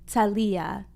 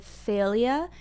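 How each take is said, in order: First: Thalia said with a hard t up front, Spanish style; Spanish Thalia with a t sound. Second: Thalia with a soft English th, slowly. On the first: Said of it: "we say it with our t sound up front". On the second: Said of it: "So in English". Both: Shown as a demonstration.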